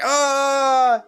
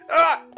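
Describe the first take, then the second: First: The scream is drawn out in full. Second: The scream breaks off abruptly partway.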